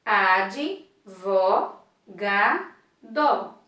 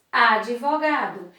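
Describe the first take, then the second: First: "Ad, vo, ga, do" as four pieces with gaps; syllable by syllable. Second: Said in the usual way. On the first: Shown as a demonstration. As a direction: break it up evenly: "Ad", "vo", "ga", "do". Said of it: "eu tenho quatro sílabas". ("Ad, vo, ga, do" separado em quatro sílabas) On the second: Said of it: "Na palavra advogado".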